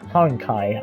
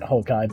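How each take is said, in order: First: It is said with an n before k. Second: It is said without an n before k. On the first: The speaker calls it right. "but it's uh Honkai, I guess, if we were being technical" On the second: The speaker calls it wrong. "I like to pronounce it Hokai"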